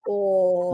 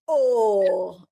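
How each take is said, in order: First: The word sounds let down and disappointed. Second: The word sounds excited and enthusiastic. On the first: The ball was missed and the match lost. "If you miss the ball and you lose the match, you're like" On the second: A big six has just been hit. "In enthusiasm?"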